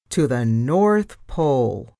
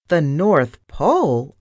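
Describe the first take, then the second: First: Said in the usual way. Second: Squeaked question of disbelief, leaping up on Pole. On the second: A narrator's reading. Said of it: "I squeaked".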